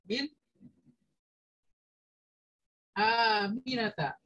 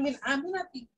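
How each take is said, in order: First: The name ends with an 'a' vowel. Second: The name ends with an 'i' vowel. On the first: The speaker calls it right. "ininya berubah menjadi fathah" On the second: The speaker calls it wrong. "maka dibacanya bukan min aminati"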